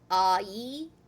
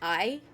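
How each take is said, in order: First: The two vowels are said separately and slowly. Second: The two vowels blend quickly into one sound. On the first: "A I, for example, would be uh" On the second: "saying it quickly, ... it comes out to be I"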